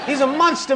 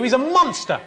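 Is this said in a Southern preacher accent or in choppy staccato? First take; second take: Southern preacher; staccato. First: Drawling, sermon-like delivery in a Southern American accent. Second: Short, clipped, separated syllables in a plain accent. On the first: "saying it in a Southern Baptist preacher accent" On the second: "in staccato fashion"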